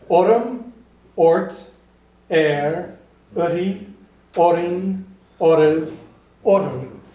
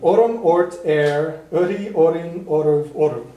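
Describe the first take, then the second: First: The list is said more slowly. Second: The list is said at a normal pace.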